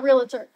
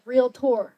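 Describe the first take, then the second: First: "realtor" in three syllables, REE-luh-ter; mispronunciation being corrected. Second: "Realtor" in two syllables, REEL-tor; teacher's correct pronunciation. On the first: Student showing what her teacher forbade, mispronounced "realtor". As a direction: slip an extra "uh" into "realtor", weak "ter" ending. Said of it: "He always said, "Realtor, not realtor". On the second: Student quoting her teacher's correction, careful pronunciation of "Realtor". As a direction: say "Realtor" with a full, clear "tor" ending. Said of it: "He always said". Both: Retold or imitated.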